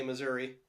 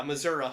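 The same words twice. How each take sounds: First: Said in the usual way. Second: "Missouri" with final uh, "Missoura"; local pronunciation. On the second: Shown as a demonstration. Host showing how locals talk, "Missouri" said as "Missoura". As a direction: end "Missouri" on "uh" rather than "ee". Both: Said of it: "is how people say Missouri".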